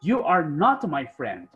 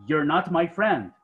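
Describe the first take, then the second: First: "You are not my friend" said slowly, each word clear; slow model sentence. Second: "You're not my friend" said slowly and clearly; slow model sentence. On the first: Teacher slowly modelling a sentence for students. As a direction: spell it out slowly for learners. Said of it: "Si yo quiero decir, por ejemplo". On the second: Teacher slowly modelling the contracted sentence. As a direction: give the contraction slowly for learners. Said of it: "puedo decir". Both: Shown as a demonstration.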